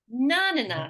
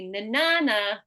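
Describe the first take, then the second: First: The stress is on the first syllable. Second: The stress is on the middle syllable. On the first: "we might make it na na na, so that would be like implement" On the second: "in the middle, it might be na na na"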